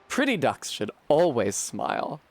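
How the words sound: It is said in a put-on bimbo voice.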